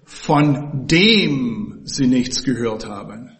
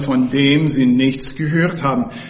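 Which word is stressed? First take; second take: dem; gehört. First: The word dem carries the stress. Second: The word gehört carries the stress. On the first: The point is the person being heard about. "dass hier die Rede von einer Person ist" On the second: The point is the act of hearing. "Also wir haben dieses Wort hören betont"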